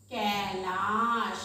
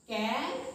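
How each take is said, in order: First: कैलाश stretched very slowly, vowel held long; drawn-out example word. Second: Said in the usual way. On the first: Shown as a demonstration. Teacher to children, dragging the word out slowly. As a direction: draw out कैलाश slowly for the class. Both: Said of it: "जैसे हम लिखते हैं".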